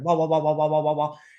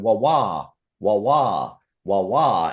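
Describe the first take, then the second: First: The repeated sounds come quickly, close together. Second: The repeated sounds are spaced out slowly.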